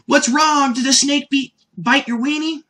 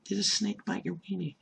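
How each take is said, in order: First: Put-on high, loud, naive kid voice; a high, earnest little-boy voice; innocent Goku. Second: Quiet repeat. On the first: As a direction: ask it with wide-eyed innocence. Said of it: "gives one of my favorite lines". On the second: Retold or imitated. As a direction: murmur it back to yourself in disbelief.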